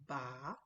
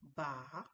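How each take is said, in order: No difference in how they are said.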